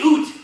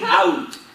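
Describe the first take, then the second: First: The vowel sounds like 'oo', as in 'oot'. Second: The vowel sounds like 'ow', as in 'out'. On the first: This is the stereotype of how Canadians say it. The speaker calls it wrong. "you say oot. We do not say oot" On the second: This is how Canadians actually say it. The speaker calls it right. "We say out"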